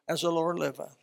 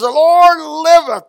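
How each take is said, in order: First: It is said quietly and calmly. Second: It is said loudly and forcefully.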